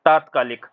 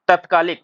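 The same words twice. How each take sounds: First: तात्कालिक with long ता, falling; correct form. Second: तत्कालिक said as the wrong form. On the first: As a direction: stretch the first ता in तात्कालिक. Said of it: "होता क्या है". (सही शब्द तात्कालिक, लंबा ता) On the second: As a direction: demonstrate the hasty तत्कालिक. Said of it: "तत्कालिक नहीं होता है". (गलत शब्द तत्कालिक) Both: Shown as a demonstration.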